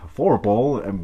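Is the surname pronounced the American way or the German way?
American. The name is said with an American English pronunciation. The speaker calls it wrong. "así en gringo lo pronuncian Fourpal"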